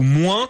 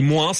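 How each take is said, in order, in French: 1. Le S final est muet. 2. Le S final est prononcé. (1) "Quand la majorité des Français disent" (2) "dans le Sud-Ouest, on prononce le S"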